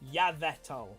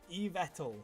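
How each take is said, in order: First: The first syllable sounds like the name Yvette. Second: The first syllable sounds like 'eve' in evil. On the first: "like Yvette" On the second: "like evil"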